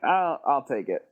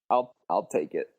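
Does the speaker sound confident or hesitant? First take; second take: confident; hesitant. First: It is said in a confident, assured tone. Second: It is said in a hesitant, unsure tone. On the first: The writer is sure of taking it. "You read that way more confident than I wrote it" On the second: The writer is unsure about taking it. "Was it more like that?"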